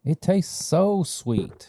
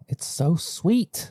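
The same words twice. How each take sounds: First: High, slow, blissful; savoring the sweetness. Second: High, slow and dreamy; savoring the sweetness. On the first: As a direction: stretch it out with delight. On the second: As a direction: linger on every word. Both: Real, not acted.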